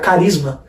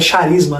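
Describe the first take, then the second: First: The word begins with a k sound. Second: The word begins with an sh sound. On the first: The speaker calls it right. "O grego não tem o som de chi, então fica carisma" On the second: The speaker calls it wrong. "O pessoal fala que é charisma"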